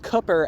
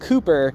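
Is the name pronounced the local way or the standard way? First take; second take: local; standard. First: The name is said the local regional way. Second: The name is said the standard common way. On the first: The speaker calls it right. "his name actually is pronounced more of the native way to where he grew up" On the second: The speaker calls it wrong. "rather than the standard Cooper"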